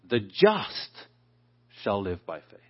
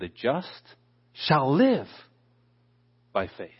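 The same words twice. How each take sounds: First: The stress is on the word just. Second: The stress is on the word live.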